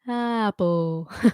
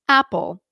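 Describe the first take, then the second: First: The word starts softly with no glottal catch. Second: The word starts with a clean glottal catch. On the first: "You're probably not going apple" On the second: "You're going apple"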